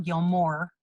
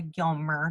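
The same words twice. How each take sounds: First: "Gilmore" said GIL-more with a full long "more" ending; mock the wrong "Gilmore" with a drawn-out "more"; wrong pronunciation. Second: "Gilmer" said GIL-mer with a short unstressed -mer ending; correct pronunciation. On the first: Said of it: "literally Gilmer". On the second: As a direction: stress "Gilmer" on the first syllable and end in a quick "mer". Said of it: "not Gilmore". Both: Shown as a demonstration.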